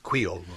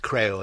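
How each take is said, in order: First: The word is said the local way, 'kway-ol'. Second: The word is said the English way, 'cree-ole'. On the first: The speaker calls it right. "it's Creole" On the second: The speaker calls it wrong. "not Creole"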